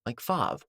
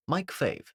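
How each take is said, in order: First: Fav said with an open ah, like "fahv"; alternative name pronunciation. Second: Fave said with a long A, rhyming with wave; "Fave" with the vowel of day; alternative name pronunciation. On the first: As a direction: say Fav with the vowel of father. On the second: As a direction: say Fave to rhyme with save. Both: Shown as a demonstration. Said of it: "whatever the hell you wanna call him".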